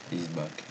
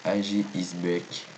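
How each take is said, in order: First: Said in the usual way. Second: "A G is back" read slowly, every word in French sounds with no English accent. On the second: Shown as a demonstration. Showing viewers a brand name in a plain French accent, slow. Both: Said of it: "Il n'y a pas l'accent anglais".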